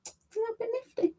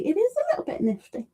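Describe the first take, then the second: First: Much higher and much softer; tiny squeaky voice, hushed; coy little mock voice, much higher; squeaky echo. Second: Said in the usual way. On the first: Shown as a demonstration. Repeating a chat comment to herself.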